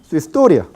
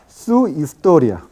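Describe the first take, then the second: First: The vowels merge into one syllable. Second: The vowels are said as separate syllables.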